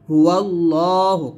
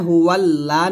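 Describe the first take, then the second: First: The L in Allah is heavy and full. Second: The L in Allah is thin and light. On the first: The speaker calls it right. "আমরা মোটা করে পড়বো" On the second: The speaker calls it wrong. "হুয়াল্লা না বলে"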